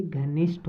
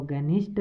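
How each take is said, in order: First: घनिष्ठ with aspirated 'gh' at the start; correct-form demo. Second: घनिष्ठ with plain unaspirated 'g' at the start; wrong-form demo. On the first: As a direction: say घनिष्ठ as 'ghanishth', breath on the gh. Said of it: "बल्कि घनिष्ठ होता है". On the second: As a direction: say घनिष्ठ as 'ganishth', g without breath. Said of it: "घनिष्ठ नहीं होता". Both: Shown as a demonstration.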